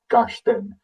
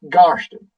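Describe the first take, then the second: First: The stress is on the second syllable. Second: The stress is on the first syllable. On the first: The speaker calls it wrong. "not your Garston" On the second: The speaker calls it right. "is your Garston"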